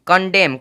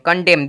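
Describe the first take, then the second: Both takes have the same delivery.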